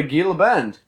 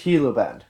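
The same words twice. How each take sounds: First: "Gila Bend" with a hard g, GHEE-la; newcomer's hard-g "Gila Bend"; hard G mispronunciation. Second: "Gila Bend" as HEE-la Bend; correcting to a breathed-h "Gila Bend"; local H pronunciation. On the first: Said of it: "When you see a G". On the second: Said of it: "give it an H sound". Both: Retold or imitated.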